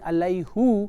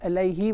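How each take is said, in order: First: The word ends with an 'oo' vowel. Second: The word ends with an 'ee' vowel. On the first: The speaker calls it wrong. "Rather than saying Alayhu" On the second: The speaker calls it right. "Alayhi was more easy on their tongue"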